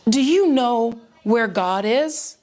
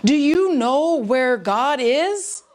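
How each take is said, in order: First: Slow, measured stern question; mildly stern, drawn-out questioning; stern pastor. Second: Very slow, stern and deliberate question; sterner pastor. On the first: Pastor sits a mischievous boy down to question him, stern. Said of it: "said to him sternly". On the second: Pastor presses the silent, wide-eyed boy, very stern. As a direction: weigh each word sternly, drawing it out. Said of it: "with an even sterner tone". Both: A narrator's reading.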